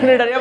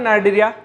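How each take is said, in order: First: The first vowel sounds like 'ee'. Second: The first vowel sounds like 'eye'. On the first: "নিডারিয়া বলতে পারো" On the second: "আয়ের উচ্চারণটা আই করলে নাইডেরিয়া"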